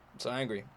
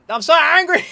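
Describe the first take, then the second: First: Much softer, deflated admission; quiet defeated. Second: Much higher, louder angry outburst; angry shout. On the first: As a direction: mumble it as if all anger is spent. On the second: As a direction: blast it out in full fury. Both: Real, not acted.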